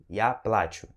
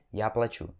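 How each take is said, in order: First: Плачу as PLA-chu, falling second syllable; stress on the A. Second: Плачу as pla-CHU, weight at the end; stress on the U. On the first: Teacher repeats the correct form, stressed A in плачу. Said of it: "Então o correto é". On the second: Teacher shows the form to avoid, stressed U in плачу. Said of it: "e não". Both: Shown as a demonstration.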